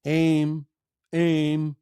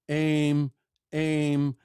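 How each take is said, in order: Both takes have the same delivery.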